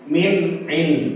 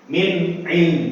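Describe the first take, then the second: Both takes have the same delivery.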